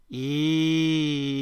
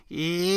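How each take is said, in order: First: A bright "ee" placed far forward in the mouth; forward twang ee. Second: "Ee" pushed as far forward as possible, higher and deliberately annoying; exaggerated annoying ee. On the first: Accent coach demonstrating East Texas forward placement, forward "ee". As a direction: say "ee" with the sound buzzing right behind the teeth. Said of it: "think of saying". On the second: Accent coach exaggerating East Texas twang, overdone forward "Ee". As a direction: make the "Ee" as nasal-forward and grating as you can, pitched up. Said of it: "as far forward ... as you possibly can".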